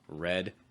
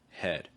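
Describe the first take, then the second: First: The word begins with an English R sound. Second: The word begins with an H-like sound. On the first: The speaker calls it right. "a word like red in English" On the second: The speaker calls it wrong. "sometimes Portuguese speakers will pronounce like head"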